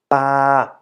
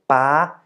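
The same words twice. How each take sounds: First: The pitch stays level in the middle. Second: The pitch stays high throughout. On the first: "And for the middle tone" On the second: "For the high tone"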